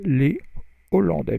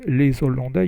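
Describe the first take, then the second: First: Les and Hollandais are said without linking. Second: A z sound links les to Hollandais. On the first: The speaker calls it right. "you say les Hollandais because the H is pronounced" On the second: The speaker calls it wrong. "you don't say"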